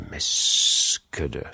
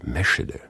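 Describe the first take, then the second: First: The s and ch are split, slightly whistled. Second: The sch is one blended sound.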